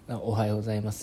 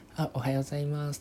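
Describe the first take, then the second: First: The greeting is said at a normal, lower pitch. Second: The greeting is said one tone higher, brighter. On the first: The speaker calls it wrong. "じゃなくて" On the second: The speaker calls it right. "ワントーン高くしたりして"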